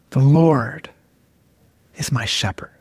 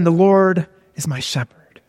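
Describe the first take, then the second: First: Low, savoring scripture reading with a long pause; really slow rereading. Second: Measured scripture reading; first slow reading. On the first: Preacher savoring a psalm verse, really slow rereading. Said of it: "really slowly". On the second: Preacher demonstrating how to read a psalm, first slow reading. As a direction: read the verse out simply, unhurried. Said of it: "So you read". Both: Shown as a demonstration.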